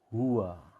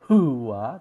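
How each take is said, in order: First: The h is said with an audible breathy hiss. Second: The h is said without an audible breathy hiss. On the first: The speaker calls it right. "Hembusan nafas itu maksudnya adalah desis" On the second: The speaker calls it wrong.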